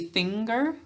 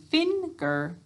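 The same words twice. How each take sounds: First: The first syllable ends in an 'ng' sound. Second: The first syllable ends in a plain 'n' sound. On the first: This is how the word is said in everyday talk. "we say finger when we're talking" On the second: This is a spelling pronunciation used to write the word. "finger to spell it"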